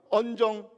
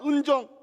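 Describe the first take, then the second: First: The first vowel is an open 'eo' sound. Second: The first vowel is an unrounded 'eu' sound. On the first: The speaker calls it wrong. "이게 안 되는 거예요" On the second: The speaker calls it right. "은정 해봐"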